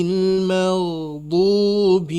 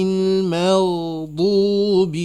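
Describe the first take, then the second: Both takes have the same delivery.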